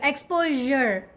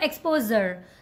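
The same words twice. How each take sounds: First: The middle consonant is a soft 'zh' sound. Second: The middle consonant is a plain 'z' sound. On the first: The speaker calls it right. "You have to make this sound here. Exposure, jur" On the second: The speaker calls it wrong. "not exposure"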